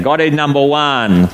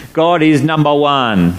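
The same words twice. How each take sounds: First: Said in the usual way. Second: Slow, weighty "God is number one"; said the pidgin way. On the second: Shown as a demonstration. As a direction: lean on "God", each word slow and solid. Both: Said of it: "you kind of got to say it like that".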